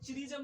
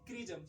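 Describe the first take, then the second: First: The word begins with a ch sound. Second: The word begins with a k sound. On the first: The speaker calls it wrong. "यहाँ पे चिरिजम नहीं बोलेंगे" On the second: The speaker calls it right. "सी एच का उच्चारण यहाँ पे आपको क आएगा"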